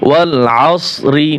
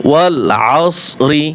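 No difference in how they are said.

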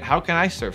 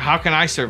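First: The question sounds hopeful and open. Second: The question sounds defeated and resigned. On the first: The asker believes an answer can be found. The speaker calls it right. "Instead of asking it" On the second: The asker doubts they can help anyone. The speaker calls it wrong. "It's being asked with an intonation that is defeating"

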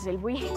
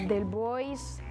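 First: The surname ends with a 'buy' sound. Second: The surname ends with a 'boys' sound. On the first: The speaker calls it right. "pero en realidad es" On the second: The speaker calls it wrong. "A veces me dicen"

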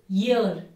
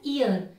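First: The word starts with a 'y' sound. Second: The word starts directly with a vowel sound. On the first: The speaker calls it right. "the correct pronunciation of this word is year" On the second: The speaker calls it wrong. "I have seen a lot of people pronouncing this word Y-E-A-R as ear"

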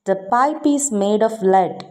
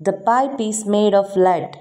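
The two takes are said the same way.

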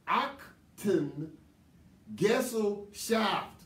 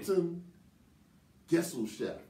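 First: It is said slowly. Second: It is said at a normal speed.

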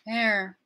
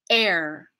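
First: The word begins with a soft, gradual start. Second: The word begins with a sharp catch in the throat. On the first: The speaker calls it wrong. "I'm not just letting it come in like this" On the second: The speaker calls it right. "we're going to use this as like an invisible consonant starting place"

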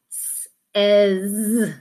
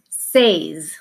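First: The vowel sounds like the one in 'bed'. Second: The vowel sounds like the one in 'day'. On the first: The speaker calls it right. "here in the middle, we say eh" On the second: The speaker calls it wrong. "a lot of students will say the word says, because that's what it looks like"

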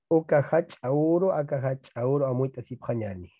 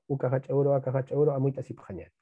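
First: The phrase is read at a slow, careful pace. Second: The phrase is read at a fast, quick pace. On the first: "vamos a leer" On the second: "Así. Rapidito"

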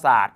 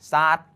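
First: It is said with Standard Thai pronunciation. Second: It is said with Southern Thai pronunciation. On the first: It is a verb meaning to splash water. "ไปเทียบเสียงกับภาษาไทยมาตรฐานเนี่ยคำว่าศาสตร์" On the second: It is a noun meaning a sitting mat. "ในภาษาถิ่นใต้ก็จะเป็นศาสตร์"

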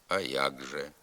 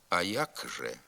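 First: The consonant before же is a voiced g. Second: The consonant before же is a voiceless k. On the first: This is the actual spoken form. "вимовляємо «а як же». Тобто замість глухого «к» вимовляється дзвінкий «г»" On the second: This follows the spelling. "Пишемо «а як же»"

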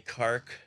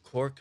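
First: It is said imitating the local Cork accent. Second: It is said in the speaker's own accent.

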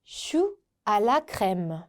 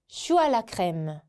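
First: The phrase is said at a slower pace. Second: The phrase is said at a faster pace.

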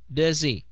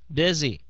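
The two takes are said the same way.

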